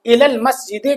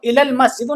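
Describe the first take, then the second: First: "मस्जिदे" ending in an e sound; correct case ending. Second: "मस्जिदु" ending in a short u; wrong case ending. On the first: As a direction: say "मस्जिदे" with the zer ending, -e instead of -u. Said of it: "कहेंगे". ("मस्जिदे" के आख़िर में ज़ेर यानी "ए" की आवाज़) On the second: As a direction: say "मस्जिदु" with final -u, as the form to avoid. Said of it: "नहीं कहेंगे". ("मस्जिदु" के आख़िर में पेश यानी "उ" की आवाज़) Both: Shown as a demonstration.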